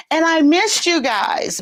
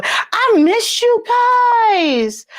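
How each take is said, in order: First: Said in the usual way. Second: High, drawn-out, excited holler; gushing call-out. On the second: Real, not acted. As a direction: stretch it out high to greet the viewers. Calls out affection to her viewers.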